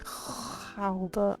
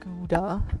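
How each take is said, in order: First: It is said with a harsh Dutch throat sound. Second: It is said with a plain English pronunciation. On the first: "it's like Gouda. I'm gonna end up spitting all over this microphone" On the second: "I always say Gouda"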